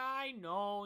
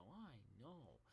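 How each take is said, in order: First: High, loud wail of agreement; acted exasperated yell; frantic admission. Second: Low, hushed sheepish reply; small, defeated acknowledgement; meek admission. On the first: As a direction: cry it out in mock despair. Retold panicked reply to mom. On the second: Retold or imitated. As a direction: admit it softly, like a scolded kid. Retold meek reply to scolding.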